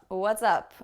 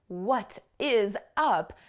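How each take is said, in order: First: The words are contracted and linked together. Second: Each word is pronounced separately and fully. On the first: The speaker calls it right. "I will probably pronounce it like what's up" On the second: The speaker calls it wrong. "I will probably not pronounce it like that"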